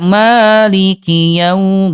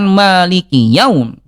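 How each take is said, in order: First: The w sound flows smoothly and softly. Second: The w sound is cut off abruptly. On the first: The speaker calls it right. "alirkan dengan lembut" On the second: The speaker calls it wrong. "Jangan sampai dihentakkan"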